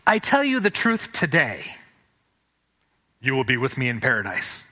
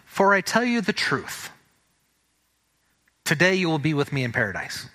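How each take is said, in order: First: The pause comes after the word 'today'. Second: The pause comes before the word 'today'.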